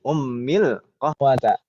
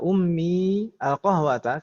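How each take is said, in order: First: The words are linked, with a short joined i. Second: The words are separate, with a long final i. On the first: "kalau kita baca sambung jadi ummil qahwata. Tidak panjang" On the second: "Tidak dibaca ummi al-qahwata"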